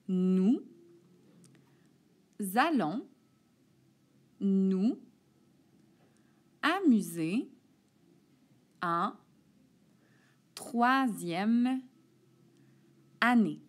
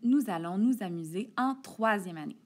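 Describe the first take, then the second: First: The sentence is read at a slower pace. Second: The sentence is read at a quicker pace. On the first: "ensuite je vais la lire plus lentement" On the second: "J'y vais un peu plus rapidement"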